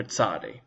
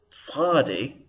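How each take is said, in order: First: "tzadi" with a simple ts, no throat; lower, softer "tzadi" with ordinary ts; modern Hebrew ts. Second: "tzadi" with a throaty, emphatic ts; back of throat. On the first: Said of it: "in modern Hebrew, most people just say ts". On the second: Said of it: "going on in the back of the throat". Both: Shown as a demonstration.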